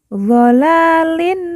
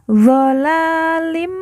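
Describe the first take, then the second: First: The word ends with a plain n sound. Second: The word ends with a nasal m sound. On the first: The speaker calls it wrong. "bukan zolalin" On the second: The speaker calls it right. "Zolalim, ... tetapi dibaca zolalim mubin"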